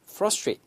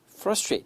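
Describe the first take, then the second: No difference in how they are said.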